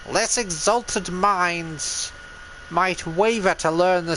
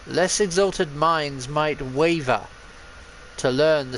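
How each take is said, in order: First: It is read in a put-on character voice. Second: It is read in the speaker's normal voice. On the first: The speaker calls it right. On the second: The speaker calls it wrong.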